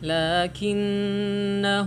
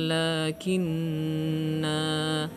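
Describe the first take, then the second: First: The final vowel is short. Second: The final vowel is lengthened. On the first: The reciter continues without stopping. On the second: The reciter stops here.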